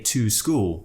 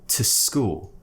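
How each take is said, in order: First: The word 'to' is full and strong. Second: The word 'to' is reduced and weak. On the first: The speaker calls it wrong. "We don't say to school usually" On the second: The speaker calls it right. "we would pronounce it as t"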